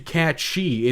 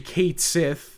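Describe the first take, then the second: First: The name sounds like 'Cat She'. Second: The name sounds like 'Kate Sith'. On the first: The speaker calls it right. "its correct Gaelic pronunciation" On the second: The speaker calls it wrong. "the incorrect pronunciation"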